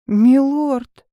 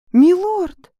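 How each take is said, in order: First: Loud, urgent call; alarmed call. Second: High, shrill-pitched desperate cry; desperate high shout. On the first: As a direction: call him back in alarm. Heroine calls out in alarm. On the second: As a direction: cry out higher, begging him to stop. Heroine calls again, louder. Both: Acted.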